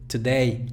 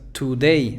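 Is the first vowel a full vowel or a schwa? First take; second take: schwa; full vowel. First: The first vowel is a short, weak schwa. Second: The first vowel is a full, clear u. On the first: The speaker calls it right. "Ahí hay otra schwa" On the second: The speaker calls it wrong. "No digas today... la U"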